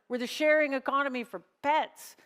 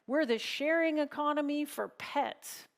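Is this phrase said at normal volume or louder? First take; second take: louder; normal. First: It is said noticeably louder. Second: It is said at a normal volume.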